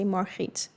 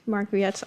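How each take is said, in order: First: The name is said with a Dutch pronunciation. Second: The name is said with an English pronunciation. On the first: "in Dutch you would say Margriet" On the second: "but Margriet, I like it as well"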